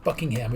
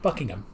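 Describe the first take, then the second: First: The last syllable is a full 'ham'. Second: The last syllable is a reduced 'gum'. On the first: The speaker calls it wrong. "it's not Buckingham" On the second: The speaker calls it right. "it's just Buckingham. It's like G U M"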